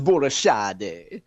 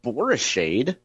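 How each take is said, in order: First: The surname is said in an Italian-sounding way. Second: The surname is said in a plain local American way. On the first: The speaker calls it right. "I think it might be Italian" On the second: The speaker calls it wrong. "That's the way a typical street hoodlum from Spanish Lake like me would pronounce it"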